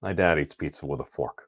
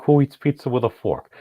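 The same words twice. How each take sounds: First: Softer, sheepish admission; quiet realization. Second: Incredulous, scoffing question; outraged disbelief. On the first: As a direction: hush as it dawns on you. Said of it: "I sit back and I'm like". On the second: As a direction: scoff at the very idea. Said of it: "I'm like". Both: Retold or imitated.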